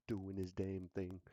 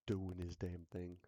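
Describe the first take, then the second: No difference in how they are said.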